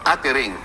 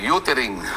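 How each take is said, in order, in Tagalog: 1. Ang unang patinig ay tunog na 'ah'. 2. Ang unang patinig ay tunog na 'oo'. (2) "Pero, pero sasabi"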